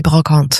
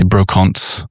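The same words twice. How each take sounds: First: Brocante in French, nasal an, silent final t; French pronunciation. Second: Brocante Anglicised, Australian vowels, final t sounded; Australian pronunciation. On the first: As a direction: say brocante the French way, bro-KAHNT. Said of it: "in French". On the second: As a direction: say brocante the Aussie English way. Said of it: "in an Australian accent". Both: Shown as a demonstration.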